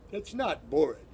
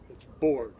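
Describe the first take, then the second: First: "bored" said with a p, like "pored"; wrong bored. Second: "bored" with a clear voiced b and no extra vowel; correct bored. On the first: Teacher showing students the wrong way, "bored" as "pored". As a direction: say "bored" as "pored-uh" to show the error. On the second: Teacher showing students the right way, clear "bored". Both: Shown as a demonstration.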